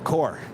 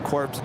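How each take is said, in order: First: It ends on the r with no consonants. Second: It ends with a p and s sound. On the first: The speaker calls it right. "pronounced as core" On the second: The speaker calls it wrong. "Corpse is pronounced as core"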